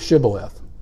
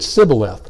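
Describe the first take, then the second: First: The word begins with an sh sound. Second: The word begins with a plain s sound. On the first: The speaker can make the sound. The speaker calls it right. "instead of Shibboleth" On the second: The speaker cannot make the sound. The speaker calls it wrong. "couldn't pronounce the letter H. So they said Shibboleth"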